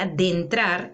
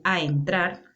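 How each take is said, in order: First: "adentrar" as "a dentrar", with a d; slow "adentrar" in place of "a entrar"; common mispronunciation. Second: Said in the usual way. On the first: Shown as a demonstration. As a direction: put a d before "entrar": "a dentrar". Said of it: "en vez de decir voy a entrar". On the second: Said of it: "en vez de decir".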